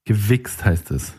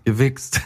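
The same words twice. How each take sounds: First: "Gewichst", the i short and clipped into -kst; corrected word. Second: "Gewichst" echoed back through a laugh; repeating "Gewichst" while laughing. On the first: Shown as a demonstration. Correcting the word to "Gewichst". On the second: Real, not acted. Repeating his friend's word, laughing.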